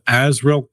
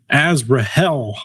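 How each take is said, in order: First: The H sound in the name is silent. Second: The H sound in the name is pronounced.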